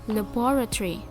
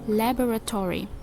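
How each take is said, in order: First: The word has only one stressed syllable. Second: The word has two stressed syllables. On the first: This is the British English pronunciation. "in British English, it receives only one stress" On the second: This is the American English pronunciation. "in American English, though a word laboratory has two stress syllable, uh, it is placed in the first and the fourth syllable"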